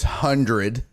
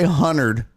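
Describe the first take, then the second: First: The word is said in the standard way. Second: The word is said in a folksy, rural way. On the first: The speaker calls it right. "I know it's hundred" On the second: The speaker calls it wrong. "I say hundred ... makes me sound like a hillbilly"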